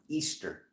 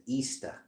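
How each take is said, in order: First: Said in the usual way. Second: Put-on "Easter" in a Rhode Island accent, final r dropped. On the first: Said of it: "I just said, you know". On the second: Telling viewers how the word slipped out, "Easter" in Rhode Island accent. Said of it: "Why is my Rhode Island accent".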